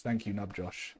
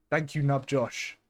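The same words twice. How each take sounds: First: Said in the usual way. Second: Really mean it this time; emphatic thanks. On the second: Real, not acted. Streamer thanking donor Nub Josh again, slow emphatic thanks.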